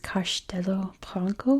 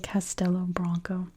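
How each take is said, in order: First: The name is said with a Portuguese pronunciation. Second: The name is said with an American pronunciation. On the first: "I think in Portuguese" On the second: "that is how we say it here in America"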